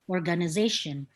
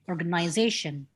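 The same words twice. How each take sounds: First: It is said with an American accent. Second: It is said with an Australian accent. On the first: "So this is America organization" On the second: "But in Australia, people tend to pronounce it organization"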